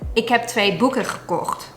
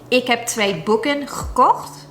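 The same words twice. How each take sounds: First: The final n of boeken is dropped. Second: The final n of boeken is pronounced.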